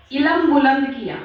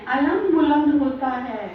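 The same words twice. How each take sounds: First: علم said as "ilm", short i, the wrong way; imitating the wrong "ilm" for علم; mispronounced ilm. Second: علم said as "alam", opening a, slow and careful; علم as "a-lam", teaching the right form; correcting to "alam" for علم. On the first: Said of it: "علم نہیں ہے". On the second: Shown as a demonstration. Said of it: "اس کو دھیان رکھیے".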